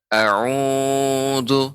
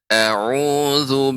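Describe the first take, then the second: First: The long vowel is stretched out too long. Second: The long vowel is held only briefly. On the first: The speaker calls it wrong. "Tidak a'udzu. Nah, khawatirnya bisa lebih dari dua harokat" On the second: The speaker calls it right. "Untuk pengucapannya a'udzu billah"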